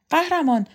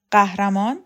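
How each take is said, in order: First: A high call of the name. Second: Questioning rise on قهرمان, said with a g; mocking echo. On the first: Acted. Roxana calling Kukan over, high call. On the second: Kukan echoing the title back at Roxana in disbelief.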